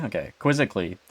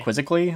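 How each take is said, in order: First: Said in the usual way. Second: "Quizzically?" asked with a rising, doubtful tune; unsure question. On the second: Real, not acted. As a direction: check the word "Quizzically?" with a questioning lift.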